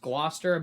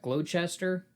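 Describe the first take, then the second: First: The word is said in a shortened form. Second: The word is said sounding out every letter. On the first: This is how the word is really pronounced. "it's pronounced Gloucester" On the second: This is how the word looks in writing. "it looks like Gloucester"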